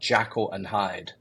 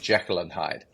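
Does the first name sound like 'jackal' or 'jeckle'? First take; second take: jackal; jeckle. First: The first name sounds like the animal 'jackal'. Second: The first name sounds like 'jeckle'. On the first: The speaker calls it wrong. "used to talk to me about Jackal and Hyde" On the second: The speaker calls it right. "rather than Jekyll and Hyde"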